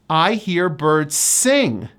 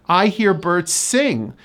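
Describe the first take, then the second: No difference in how they are said.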